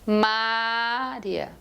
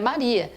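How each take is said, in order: First: The stress is on the first syllable. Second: The stress is on the middle syllable. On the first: The speaker calls it wrong. "segurar a primeira sílaba ... Ninguém se chama Mária" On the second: The speaker calls it right. "O nome dela é Maria"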